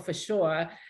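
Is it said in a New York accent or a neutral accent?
New York. It is said in a New York accent.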